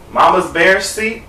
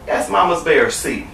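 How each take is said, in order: First: "Mama's Bear's seat" slow with a questioning rise. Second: "That's Mama's Bear's seat" slow, softer, falling; confirming. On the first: Storyteller doubting her "Mama's Bear's seat", questioning. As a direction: query "Mama's Bear's seat", lifting the end. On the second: Storyteller answering herself on "Mama's Bear's seat", confirming. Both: Real, not acted.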